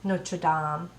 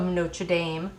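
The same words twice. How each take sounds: First: It is said with a French accent. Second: It is said with an American accent. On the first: The speaker calls it right. "Say it in my French accent" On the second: The speaker calls it wrong. "saying that with an American accent"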